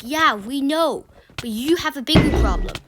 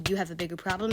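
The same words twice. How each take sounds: First: Scolding teacher. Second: Said in the usual way. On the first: Retold or imitated. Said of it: "And then she's like". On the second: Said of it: "She didn't actually say".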